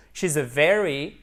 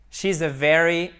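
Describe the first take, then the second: No difference in how they are said.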